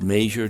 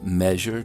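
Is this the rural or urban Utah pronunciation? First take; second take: rural; urban. First: It has the rural Utah pronunciation. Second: It has the general urban Utah pronunciation. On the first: "in rural areas there's a slightly greater propensity to be pronounced" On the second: "generally pronounced"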